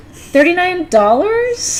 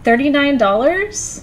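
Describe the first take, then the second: First: Dollars rising high and slow like a question; uptalk. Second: Uptalk. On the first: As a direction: say "dollars?" with the voice climbing at the end. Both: Shown as a demonstration. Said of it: "when my voice goes up at the end".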